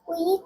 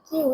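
First: The vowel sounds like 'kweet'. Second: The vowel sounds like 'kyoot'. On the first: The speaker calls it wrong. "কুইট না" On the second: The speaker calls it right.

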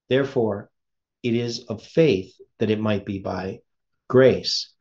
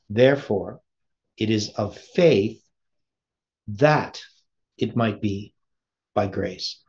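First: It is said at normal speed. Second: It is said slowly.

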